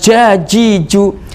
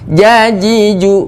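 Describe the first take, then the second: First: The j sounds are released with escaping air. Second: The j sounds are voiced with no escaping air. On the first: The speaker calls it wrong. "bukan jajiju" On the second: The speaker calls it right. "ja tidak boleh mengeluarkan udara"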